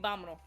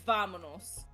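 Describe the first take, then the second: First: The word begins with a B sound. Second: The word begins with a V sound. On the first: The speaker calls it right. "We vámonos" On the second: The speaker calls it wrong. "We don't say vámonos"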